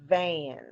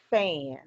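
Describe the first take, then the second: First: "Van" starting on a buzzing voiced V. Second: "fan" starting on a breathy voiceless F. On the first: Teacher modelling a buzzing V for the class. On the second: Teacher contrasting a voiceless F for the class. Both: Shown as a demonstration. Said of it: "say the pair of words with me".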